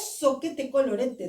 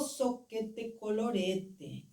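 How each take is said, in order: First: It is said in a sure, confident way. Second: It is said in a let-down, disappointed way. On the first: A plan is being made. "planeja alguma outra coisa" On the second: Something has failed. "vivencia um fracasso e diz"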